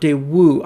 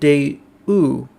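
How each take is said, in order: First: The W sound is pronounced strongly and clearly. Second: The W sound is weak and barely heard. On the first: This is how it is usually heard. "I've always heard it with the W pronounced uh, more strongly than that" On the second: This is how someone else says it. "It's interesting how he pronounces it Daewoo"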